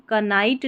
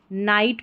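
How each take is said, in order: First: कनाइट with the silent K wrongly sounded as "ka". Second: नाइट starting straight on N, no K; silent K. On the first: Teacher showing learners what not to read, कनाइट with K sounded. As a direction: say कनाइट with an extra "ka" before the N. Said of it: "इसको हम कनाइट नहीं पढ़ेंगे". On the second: Teacher giving the reading of Knight, नाइट with silent K. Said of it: "नाइट पढ़ेंगे". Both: Shown as a demonstration.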